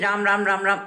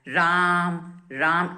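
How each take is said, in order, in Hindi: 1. नाम जल्दी-जल्दी दोहराया जाता है। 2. नाम धीरे-धीरे दोहराया जाता है। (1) "वो भी बहुत तेज तेज नहीं, राम राम राम राम ऐसे नहीं बोलना है" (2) "एक एक अक्षर की वाइब्रेशंस को महसूस करते हुए"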